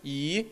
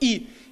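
First: The pitch rises from middle to high. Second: The pitch falls sharply from high to low. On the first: "второй – «и»" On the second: "четвертый – «и»"

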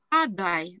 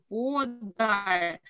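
First: The first vowel is reduced to an a sound. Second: The first vowel is a clear o sound. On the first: The speaker calls it wrong. "нельзя читать как «подай»" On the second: The speaker calls it right. "Мы читаем «подай»"

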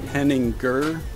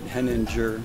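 First: The name is said with a German pronunciation. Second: The name is said with an English pronunciation. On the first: "the right, correct German way" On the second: "my mom pronounces it Henninger"

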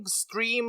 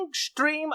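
First: The word begins with a clear s sound. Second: The word begins with an sh sound. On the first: The speaker calls it right. "Вони не кажуть" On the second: The speaker calls it wrong. "вони кажуть"

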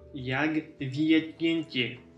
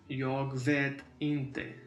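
First: The vowel in vet is a ye sound. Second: The vowel in vet is a plain e. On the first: The speaker calls it wrong. "это не будет jag vet inte, потому что это просто будет смешно" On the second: The speaker calls it right. "на шведском языке говорится «э», не «е»"

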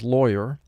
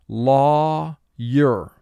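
First: The word is said smoothly, as in conversation. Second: The word is exaggerated into two separate syllables. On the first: This is how the word is said in normal speech. "Our spoken pronunciation is lawyer" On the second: This helps to remember how the word is spelled. "for spelling, mentally pronounce it to yourself"

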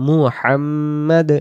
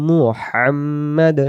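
No difference in how they are said.

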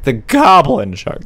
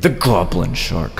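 First: It is said in a normal voice. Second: It is said in a creepy voice.

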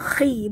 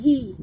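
First: It begins with a rough throaty kh sound. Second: It begins with a soft breathy h sound. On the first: The speaker calls it right. "jaga bunyinya khi" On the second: The speaker calls it wrong. "bukan hi"

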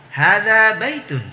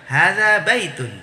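The two takes are said the same way.

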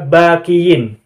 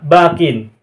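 First: The word ends -kiyin with a y sound. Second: The word ends -kin with no y sound. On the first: The speaker calls it wrong. "Tidak dibaca bakiyin. Ya-nya tidak dimunculkan" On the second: The speaker calls it right. "ketika bakin sebagai majrur maka harakatnya sama bakin"

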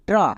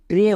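First: The syllable has a short open 'a' vowel. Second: The syllable has a long 'ay' vowel. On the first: The speaker calls it wrong. "কিন্তু এখানে ট্রা হবে না।" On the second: The speaker calls it right. "এর long sound একার, তাই টি আর ই ট্রে হয়েছে।"

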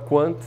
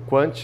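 First: It is pronounced the English way. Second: It is pronounced the Portuguese way.

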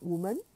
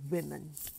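First: The first syllable sounds like 'woo'. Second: The first syllable sounds like 'wim'. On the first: The speaker calls it wrong. "Not woman" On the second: The speaker calls it right. "but women"

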